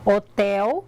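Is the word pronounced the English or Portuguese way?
Portuguese. It is pronounced with Portuguese sounds. "em português eu falo hotel"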